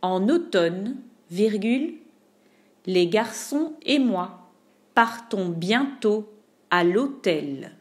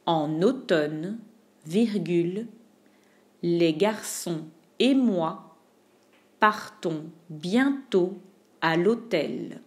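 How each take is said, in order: First: Said in the usual way. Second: Slow dictation. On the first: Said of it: "slower repeat of same sentence". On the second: Shown as a demonstration. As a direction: dictate piece by piece slowly. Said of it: "slower chunked repeat".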